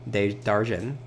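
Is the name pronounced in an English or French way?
French. The name is said with a French pronunciation. The speaker calls it right. "now I know the French pronunciation"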